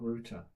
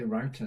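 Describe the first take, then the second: First: Router with "oo", as in "rooter"; British router. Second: Router with "ow", as in "rowter"; American router. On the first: Host contrasting his American habit, "rooter" for router. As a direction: say router to rhyme with "hooter". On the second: Host showing Amazon Live habit, "rowter" for router. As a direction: say router to rhyme with "doubter". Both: Shown as a demonstration. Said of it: "I say router, not router".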